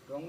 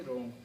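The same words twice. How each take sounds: First: रॉन्ग with an extra sound before the r; wrongly sounded W. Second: रॉन्ग starting directly on r; silent W. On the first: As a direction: mispronounce wrong, W voiced at the start of रॉन्ग. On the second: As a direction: say wrong as रॉन्ग, W left silent. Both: Shown as a demonstration. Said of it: "रॉन्ग नहीं, रॉन्ग".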